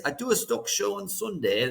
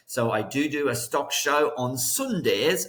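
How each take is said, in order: First: Light, slightly higher English accent on a stock show; playful put-on English accent; mock English accent. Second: Said in the usual way. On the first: Shown as a demonstration. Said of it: "It's my best English accent there, mate". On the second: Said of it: "It's my best English accent there".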